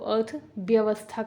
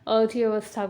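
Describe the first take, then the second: First: The sound after 'arth' is a 'b'. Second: The sound after 'arth' is a 'v'. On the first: This is how it is said in the regional dialect. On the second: This is the standard Hindi form.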